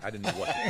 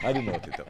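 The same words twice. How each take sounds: First: Said in the usual way. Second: Said through a laugh; a real laugh through the words. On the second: Real, not acted. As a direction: laugh while repeating it. Laughs at own memory.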